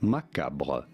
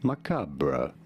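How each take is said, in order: First: It is said with a French pronunciation. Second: It is said with a British pronunciation.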